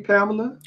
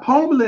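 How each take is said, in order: First: Said in the usual way. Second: "Pamela" said as POM-uh-la; mispronounced Pamela. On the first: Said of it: "I mean, Pamela". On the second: Real, not acted. Host greeting a woman in the building, "Pamela" said POM-uh-la. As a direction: round the first vowel of "Pamela" to POM. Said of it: "He said Pamela".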